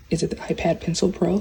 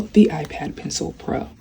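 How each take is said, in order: First: "iPad Pencil Pro" asked as a quick check; unsure question. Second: "The iPad Pencil Pro" stated firmly as the answer; confirming. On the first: Vlogger checking the product name "iPad Pencil Pro", questioning. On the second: Vlogger answering own question on "iPad Pencil Pro", confirming. Confirms product name after asking. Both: Real, not acted.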